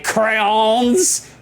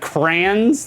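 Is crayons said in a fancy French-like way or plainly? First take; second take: fancy; plain. First: The word sounds fancy and French-like. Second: The word sounds plain and ordinary. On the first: It is the pretentious way some people say it. The speaker calls it wrong. "some French bougie elitists in chat that like to say crayons" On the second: It is the normal way people say it. The speaker calls it right. "the proper way to pronounce it"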